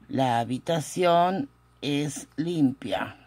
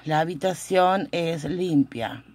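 First: Slow, with pauses between word groups; slow dictation. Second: Said in the usual way. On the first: Shown as a demonstration. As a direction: spell out the sentence word by word for note-takers. Teacher repeats translation slowly. (dictado lento y pausado)

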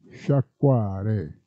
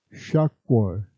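First: Said in the usual way. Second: "sciacquare" cut down to shako, the ending dropped; "sciacquare" said short as sha-ko; "sciacquare" in dialect, only sha-ko; clipped dialect form. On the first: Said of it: "si può trasformare in W". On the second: Shown as a demonstration. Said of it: "quando la U non è bene scandita".

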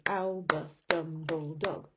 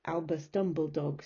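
First: "Albus Dumbledog" in slow, separated beats; measured counting out of "Albus Dumbledog"; syllable by syllable. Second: Said in the usual way. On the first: Shown as a demonstration. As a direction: break up "Albus Dumbledog" as Al, bus, Dum, ble, dog. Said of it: "So five syllables". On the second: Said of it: "my dog's name is".

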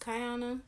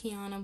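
First: Kiana said as "kai-AH-nuh"; first syllable of Kiana rhymes with "sky"; correct name pronunciation. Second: Kiana said as "kee-AH-nuh"; first syllable of Kiana rhymes with "key"; mispronounced name. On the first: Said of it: "It's pronounced Kiana". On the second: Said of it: "but it's not". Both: Shown as a demonstration.

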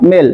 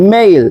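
First: মেল as short "mel"; wrong pronunciation. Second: মেইল as "meyl"; correct pronunciation. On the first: Teacher says not this, মেল mispronounced with plain "e". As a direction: say মেল with pure e. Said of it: "not মেল". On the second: Teacher repeats what we will say, correct "meyl" for মেইল. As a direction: glide from e to i in মেইল. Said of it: "এটাকে বলবো". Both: Shown as a demonstration.

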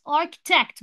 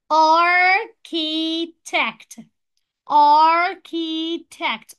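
First: Said in the usual way. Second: "architect" broken very slowly as ar... ki... tect; split into syllables. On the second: Shown as a demonstration. Teacher shows three syllables, "architect" split in three. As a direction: say "architect" in three beats, "ar" long and loud. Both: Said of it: "architect برضو three syllables".

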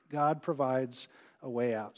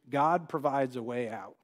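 First: "God provides a way out" repeated slower and lower, each word weighed; slow emphatic repeat. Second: Said in the usual way. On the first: Shown as a demonstration. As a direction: let "God" land heavily on the repeat.

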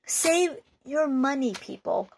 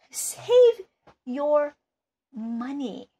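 First: Said in the usual way. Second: "Save" shouted much higher and louder, "your money" dropping back down; "Save" yelled up high, "your money" settling to normal; stress on save. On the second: Real, not acted. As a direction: punch "Save" hard, then let "money" fall. Repeats warning with emphasis.

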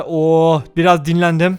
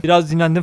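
First: Slow, relaxed Oo biraz dinlendim with a long sigh-like Oo; contented drawl. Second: Said in the usual way. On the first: Real, not acted. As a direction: sink into it, taking time. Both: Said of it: "repeated line".

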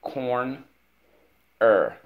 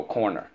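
First: Corn held high, long pause, then loud Er; split into syllables. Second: Said in the usual way. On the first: Shown as a demonstration. Teacher shows pupil corner's two parts, split into syllables. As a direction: break it into Corn and Er. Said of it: "First syllable". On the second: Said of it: "Let's go".

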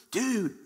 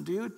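First: Dude landed firmly, higher and dropping; a punched, falling Dude; emphatic falling dude. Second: Dude with a lifted, questioning rise; a casual rising dude. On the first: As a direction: stamp the second Dude down hard. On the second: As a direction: toss out dude lightly, going up. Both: Retold or imitated. Excited reply to Peter's call.

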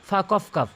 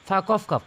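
The two takes are said the same way.

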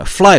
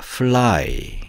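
First: "fly" as 프라이, high, with tapped R; Korean-style mispronunciation. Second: "fly" as 플-라이, a clear L linking both parts; correct English L. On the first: Teacher shows learners what to avoid, Koreanized "fly". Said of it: "fly가 아니라". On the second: Teacher corrects the Korean version, clear-L "fly". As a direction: hold the L in "fly". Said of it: "fly입니다". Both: Shown as a demonstration.

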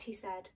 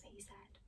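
First: Said in the usual way. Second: Narration tag whispered. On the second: A narrator's reading. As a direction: keep the whisper through the tag.

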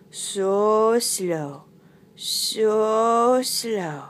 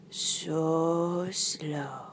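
First: Long, stretched "So slow"; drawn-out slowness. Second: "So slow" in a drawn-out whisper; hushed slowness. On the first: Narrator showing loris's crawl, slow drawn-out words. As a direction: drag each vowel of "So slow" right out. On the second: Narrator showing loris's crawl, soft slow whisper. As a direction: breathe "So slow" softly, stretching it. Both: Acted.

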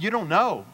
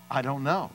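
First: Raised, disbelieving question; incredulous echo. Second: Said in the usual way. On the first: Retold or imitated. Preacher echoing the mechanic's answer, incredulous. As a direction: throw it back in high disbelief.

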